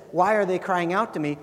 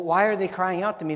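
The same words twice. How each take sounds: First: Steady, concerned God; caring reading. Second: Quick, irritated God who is fed up; exasperated reading. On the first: Preacher gives God's question its true caring sense, concerned. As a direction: ask it as a protective father would. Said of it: "he's saying". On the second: Preacher shows the wrong way to hear God's question, impatient. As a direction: read it as an impatient brush-off. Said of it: "That's not like, "What's their problem?". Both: Shown as a demonstration.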